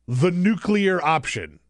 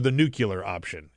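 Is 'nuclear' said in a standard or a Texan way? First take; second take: standard; Texan. First: Nuclear is said in a standard way. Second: Nuclear is said the Texan way, like 'nucular'.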